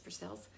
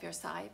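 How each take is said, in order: First: The name ends rhyming with 'sales'. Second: The name ends with a 'sigh' sound. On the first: This is the local Kentucky name. "but it's Versailles. ... it's like for sale, but for sales" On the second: This is the usual French name. "which is like Versailles"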